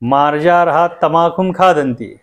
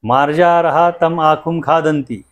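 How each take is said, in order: First: Tam and akhum run together as one word. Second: Tam and akhum are said as separate words. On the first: The cat is eating tobacco. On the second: The cat is eating that mouse.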